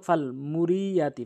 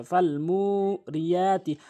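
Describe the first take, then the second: First: "ফাল মুরিয়াতি" with short "মু" and "য়া"; no elongation. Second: "ফাল মুরিয়াতি" slow, "মু" and "য়া" held long; elongated vowels. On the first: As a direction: say "ফাল মুরিয়াতি" quickly through, holding no vowel. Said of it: "ফাল মুরি বলে". (না টেনে "ফাল মুরিয়াতি") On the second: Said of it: "এভাবে টেনে পড়তে হবে". (টেনে টেনে "ফাল মুরিয়াতি") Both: Shown as a demonstration.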